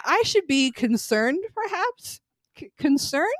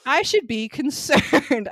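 First: Mock doubtful. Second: Slow, loud mock-serious line; mock serious self-aware; mock deadpan. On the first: Mock questioning own concern. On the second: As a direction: say it like a deadpan hero. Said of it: "he's like".

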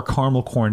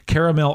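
First: "caramel" shortened to CAR-mel before "corn"; clipped two-syllable "caramel" in "caramel corn". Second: "caramel" with all three syllables, CARE-uh-mel; careful, full "caramel". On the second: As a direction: sound out the middle vowel in "caramel". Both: Shown as a demonstration. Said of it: "how you pronounce that word".

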